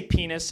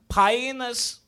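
First: Said in the usual way. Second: High mock-Portuguese "Painus". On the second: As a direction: say "Painus" in a fake Portuguese accent, pitched up. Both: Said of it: "This is how I say penis in Portuguese".

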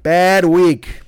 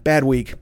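First: Louder, heavier second take; louder repeat. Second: Said in the usual way. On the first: Shown as a demonstration. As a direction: lean into it harder the second time. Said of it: "repeats the phrase louder". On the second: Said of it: "repeats the phrase".

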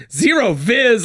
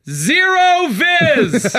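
First: Higher, brisker mock quote; buddy's amused repeat. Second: Very high, drawn-out imitation; diver's deadpan-report impression. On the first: Buddy repeating the diver's phrase, amused mock quote. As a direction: echo the phrase in disbelief, less stretched. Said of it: "he's like". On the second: Old diver reporting up to the dock, drawn-out imitation. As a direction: stretch both words out in a put-on voice. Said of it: "looks up and just goes".

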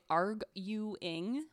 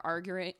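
First: "arguing" drawn out as arg-YOU-ing, pitch rising; careful syllable-by-syllable. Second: Said in the usual way. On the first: Shown as a demonstration. Storyteller correcting a stumble, "arguing" sounded out syllable by syllable. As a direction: sound out "arguing" slowly in three separate parts, higher.

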